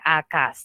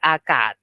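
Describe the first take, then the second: First: The word ends with an S sound. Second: The word ends with a T sound. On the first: The speaker calls it wrong. "tidak bacanya akas dengan bunyi S" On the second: The speaker calls it right. "tapi akad dengan bunyi T"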